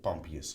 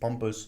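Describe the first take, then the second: First: The name is said as pump-ius, three syllables. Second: The name is said like the word pompous. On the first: The speaker calls it right. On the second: The speaker calls it wrong.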